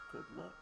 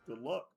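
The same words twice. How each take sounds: First: It is said in a put-on character voice. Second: It is said in his ordinary natural voice.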